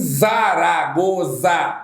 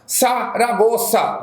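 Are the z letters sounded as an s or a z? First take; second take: z; s. First: The z letters are voiced z sounds. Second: The z letters are voiceless s sounds. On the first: The speaker calls it wrong. "não há que se falar em Zaragoza. Não existe isso" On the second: The speaker calls it right. "Existe Saragoça"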